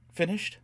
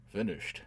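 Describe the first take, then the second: First: High, eager rising question. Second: Said in the usual way. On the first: A narrator's reading. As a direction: ask it keenly, pitch lifted. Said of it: "Gisbella asked eagerly".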